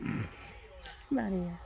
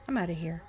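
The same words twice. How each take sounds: First: Slow, laughing drawl. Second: Said in the usual way. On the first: Real, not acted. Laughing sign-off to her viewers. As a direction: laugh it out lazily.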